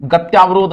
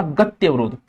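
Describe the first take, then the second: First: गत्यावरोध with long aa after tya; wrong pronunciation. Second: गत्यवरोध with short vowel after tya; correct pronunciation. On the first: Teacher showing students the mistake, mispronounced demo. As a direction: say गत्यावरोध, stretching the aa in त्या. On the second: Teacher giving students the correct word, careful pronunciation. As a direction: say गत्यवरोध, keeping त्य short. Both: Shown as a demonstration. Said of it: "गत्यावरोध नहीं होता".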